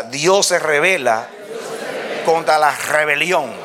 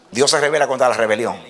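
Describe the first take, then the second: First: Measured call-and-response delivery, pause after "revela"; feed "Dios se revela", pause, then "contra la rebelión"; spaced out for the congregation to echo; line for repeating. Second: Said in the usual way. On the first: Real, not acted. Y diga.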